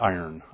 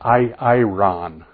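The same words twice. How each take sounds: First: It is pronounced like the English word iron. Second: It is pronounced the Greek way. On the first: This is the Greek word carried over into English. The speaker calls it wrong. "not iron" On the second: This is the word's proper original pronunciation. The speaker calls it right. "It's technically iron"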